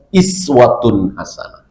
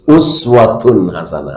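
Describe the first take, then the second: First: The first word begins with an i vowel. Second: The first word begins with a u vowel.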